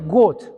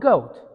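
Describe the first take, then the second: First: The vowel is short, like in 'got'. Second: The vowel is a long 'oh' sound. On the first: The speaker calls it wrong. "You don't say goat. If you say goat, it should be written like G O T" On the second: The speaker calls it right. "Oh, goat. That's a goat"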